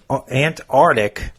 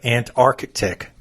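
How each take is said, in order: First: The first c sound is left out. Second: The first c sound is clearly pronounced. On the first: The speaker calls it wrong. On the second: The speaker calls it right.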